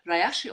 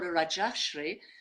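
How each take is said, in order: First: The middle consonant is a Y sound. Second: The middle consonant is a J sound. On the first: "I'm going to opt for the Y version" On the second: "as a J"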